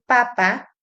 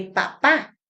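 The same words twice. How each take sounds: First: Papa stressed on PA-, first syllable. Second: Papá stressed on final -PÁ; stress on last syllable of papá. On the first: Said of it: "sin tilde que papá". (papa con acento en la primera sílaba) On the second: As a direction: say papá with the beat on the second pa. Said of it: "La tilde cambia el sentido". (papá con acento en la última sílaba) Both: Shown as a demonstration.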